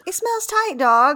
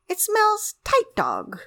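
First: It is said in a normal, plain way. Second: It is said in an unusual, exaggerated way.

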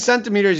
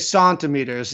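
First: The first syllable sounds like 'sen'. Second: The first syllable sounds like 'sahn'. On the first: This is the ordinary way of saying it. "Instead of saying centimeters" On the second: The speaker feels important and sophisticated. "you say centimeters. It's wild"

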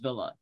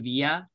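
First: It is said with an English pronunciation. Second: It is said with a Spanish pronunciation.

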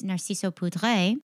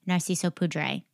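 First: The name is said with a French accent. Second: The name is said with an English accent.

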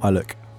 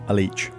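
First: The word ends with a 'k' sound. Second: The word ends with a 'ch' sound. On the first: The speaker calls it right. "but oh no" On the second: The speaker calls it wrong. "to the common man, you may think it's called a leech, but oh no"

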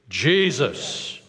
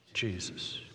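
First: It is said strongly with conviction. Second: It is said softly and quietly.

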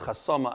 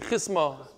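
First: It has three syllables with an 'a' vowel first. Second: It has two syllables with an 'i' vowel first. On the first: This is how the speaker's printed text reads it. The speaker calls it wrong. "my Gemara says chasama. I don't like it" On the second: This is how it was said in the speaker's yeshiva. The speaker calls it right. "In Yeshiva, I think we used to say chisma"

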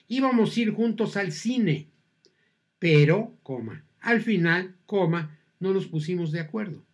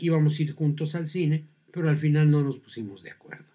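First: There are pauses around 'al final'. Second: 'Pero al final' runs on without pauses.

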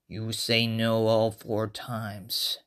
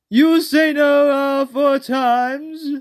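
First: It is said in a menacing, scary voice. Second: It is said in a silly put-on voice. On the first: The threat is meant seriously. The speaker calls it right. "That is scary. That makes it scary" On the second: The threat is hard to take seriously. The speaker calls it wrong. "with this voice, it would be kind of hard to take it seriously"

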